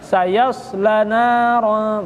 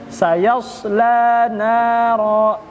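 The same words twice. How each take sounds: First: The la vowel is short, run straight on. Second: The la vowel is held long. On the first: The speaker calls it wrong. "Bukan langsung, bukan sayasla naran" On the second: The speaker calls it right. "Tapi la-nya panjangin dulu"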